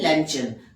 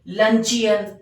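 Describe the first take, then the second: First: It is said with two syllables, lun-chun. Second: It is said with three syllables, lun-chee-un. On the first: The speaker calls it right. "ये है लंचन" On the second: The speaker calls it wrong. "Pronunciation होता है वो गलत बोलते हैं, जैसे लंचियन"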